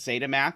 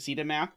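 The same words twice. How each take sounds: First: Zeta is said the American way. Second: Zeta is said the British way.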